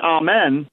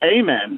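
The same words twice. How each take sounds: First: Amen is said the English way. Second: Amen is said the American way. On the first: "the English are going to say amen" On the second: "versus amen"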